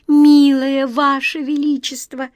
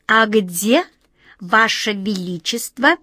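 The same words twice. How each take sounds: First: Медленно, дрожащий, умоляющий голос; голос дрожит от волнения; дрожащим голосом. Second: Said in the usual way. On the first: A narrator's reading. (дрожащим голосом) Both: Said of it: "дрожащим голосом сказала Ниточка".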